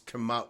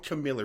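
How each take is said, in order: First: The name sounds like Kamala. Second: The name sounds like Camilla. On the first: The speaker calls it right. "it's Kamala" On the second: The speaker calls it wrong. "I always pronounce her name wrong ... it's not Camilla"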